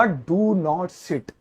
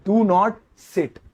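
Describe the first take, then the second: First: "Do not sit" stretched very slowly, softer; slow emphatic reading of a sign; very slow dictation. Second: Said in the usual way. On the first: Shown as a demonstration. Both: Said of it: "तो उसके ऊपर मैं लिखूंगा".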